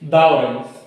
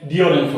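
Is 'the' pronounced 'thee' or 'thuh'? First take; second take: thuh; thee. First: 'The' is said with a short 'uh' vowel. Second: 'The' is said with a long 'ee' vowel. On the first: The speaker calls it wrong. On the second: The speaker calls it right.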